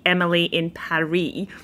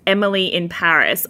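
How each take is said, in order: First: The last word rhymes with Emily. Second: The last word does not rhyme with Emily. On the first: The speaker calls it right. "It's meant to be Emily in Paris, so that it rhymes" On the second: The speaker calls it wrong. "that's the wrong way to say it"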